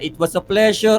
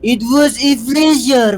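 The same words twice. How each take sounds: First: It is said in the speaker's plain voice. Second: It is said in a put-on accent.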